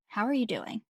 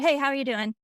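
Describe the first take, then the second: First: It is asked slowly and sincerely. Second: It is asked quickly and casually.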